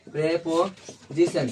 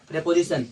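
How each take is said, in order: First: preposition stretched very slowly, syllable by syllable; slow drawn-out word. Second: Said in the usual way. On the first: Shown as a demonstration. Teacher spelling out preposition for the class, slow and drawn out. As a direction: draw out preposition slowly so the class can copy it.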